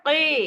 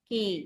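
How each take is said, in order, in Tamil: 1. மெய் எழுத்து கனமானது, தொண்டையின் ஆழத்திலிருந்து வரும். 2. மெய் எழுத்து லேசானது, வாயின் முன்பகுதியிலிருந்து வரும். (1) "ஹெவியா தான் உச்சரிக்கணும்" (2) "லைட்டா எப்படி சொல்லுவோம்?"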